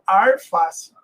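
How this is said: It is said in a Minas Gerais accent, r sound. "interior de Minas Gerais, ... eu falo arface"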